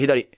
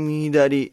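First: The word is said quickly and decisively. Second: The word is said slowly and uncertainly. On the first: The speaker knows the answer instantly. The speaker calls it right. "すぐね、パッと" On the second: The speaker is unsure of the answer. The speaker calls it wrong. "みたいな言い方はしたくないのよ"

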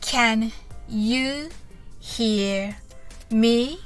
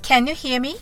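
First: It is said slowly. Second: It is said fast and urgently.

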